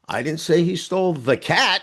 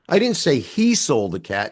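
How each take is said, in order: First: The stress is on "cat". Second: The stress is on "he".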